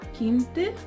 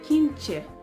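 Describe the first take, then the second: First: The t is pronounced as a plain t. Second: The t is pronounced as a ch sound. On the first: This is the European Portuguese pronunciation. "Same for quinte" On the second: This is the Brazilian Portuguese pronunciation. "and quinche"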